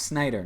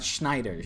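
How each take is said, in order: First: The name begins with a plain 's' sound. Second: The name begins with an 'sh' sound. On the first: This is the Dutch way to say the name. The speaker calls it right. "It's pronounced Snyder" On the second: This treats the name as German. The speaker calls it wrong. "not Schneider"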